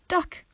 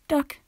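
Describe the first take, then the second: First: It sounds like simply pointing something out. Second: It sounds uncaring and offhand.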